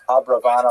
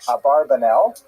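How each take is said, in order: First: The name is said as Abravanel, with 'bra'. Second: The name is said as Abarbanel, with 'bar'. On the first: It is the scholarly form. The speaker calls it right. "it's most likely uh, pronounced" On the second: It is the popular form, easier to rhyme. The speaker calls it wrong. "many people pronounce his name uh"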